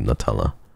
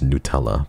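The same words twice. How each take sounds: First: The first syllable does not sound like 'new'. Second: The first syllable sounds like 'new'. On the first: This is the way it really should be said. "I think it's really Nutella" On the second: This is how some other people say it. "some people actually say new"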